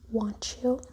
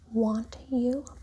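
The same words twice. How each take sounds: First: The t and y merge into a ch sound. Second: The t and y stay separate sounds.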